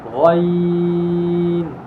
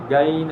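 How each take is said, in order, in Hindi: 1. पहली ध्वनि भारी है, जीभ की जड़ उठाकर। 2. पहली ध्वनि हल्की है, जीभ की जड़ उठाए बिना। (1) "पीछे से ज़बान की जड़ को बुलंद करेंगे" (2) "गैन ऐसे नहीं"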